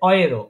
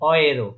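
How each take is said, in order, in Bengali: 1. শব্দটি 'oy' ধ্বনি দিয়ে শুরু হয়। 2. শব্দটি 'oy' ধ্বনি দিয়ে শুরু হয়।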